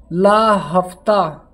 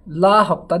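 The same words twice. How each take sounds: First: ला हफ्ता stretched out slowly, each word held; slow emphatic ला हफ्ता; drawn-out mnemonic. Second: Said in the usual way. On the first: Shown as a demonstration. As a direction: drag out ला हफ्ता like a chant to memorise. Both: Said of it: "तो ला हफ्ता".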